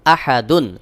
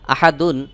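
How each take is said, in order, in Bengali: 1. শব্দটি শেষ হয়েছে একটি শেষের un ধ্বনি দিয়ে। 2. শব্দটি শেষ হয়েছে একটি শেষের un ধ্বনি দিয়ে।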